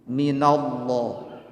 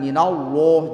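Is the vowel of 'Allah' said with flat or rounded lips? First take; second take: flat; rounded. First: The vowel is said with flat, spread lips. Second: The vowel is said with lips pushed forward. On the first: It names God. The speaker calls it right. "Lafaz Allah ketika dibaca rata bibir" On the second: The meaning can become a devil. The speaker calls it wrong. "Jangan maju, bibirnya harus rata"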